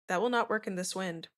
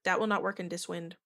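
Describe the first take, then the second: First: It is read in a plain voice. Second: It is read in the character's accent.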